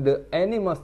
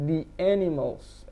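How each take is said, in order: First: 'The' is said with a short 'thuh' vowel. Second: 'The' is said with a long 'thee' vowel. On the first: The speaker calls it wrong. "bukan the animals" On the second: The speaker calls it right. "the ini dibaca jadi di"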